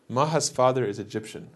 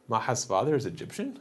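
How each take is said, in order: First: The voice falls at the end. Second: The voice rises at the end. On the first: It states a fact. "It's declarative, right? I just told you something" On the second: It asks a question. "If I raise my voice at the end, it becomes a question"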